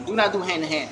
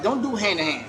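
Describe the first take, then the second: First: Not pulled apart from do and pressed firmly; stress on not. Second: Said in the usual way. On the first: Shown as a demonstration. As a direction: separate "Do not" and lean on not.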